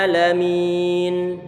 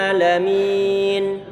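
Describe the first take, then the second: No difference in how they are said.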